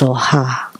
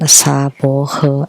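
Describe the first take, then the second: First: The word is said with two syllables. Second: The word is said with three syllables. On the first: This is the original form. The speaker calls it right. "Actually, it's Soha" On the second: This is how it is chanted in Taiwan. The speaker calls it wrong. "when Taiwanese chant, they would chant Sabohe"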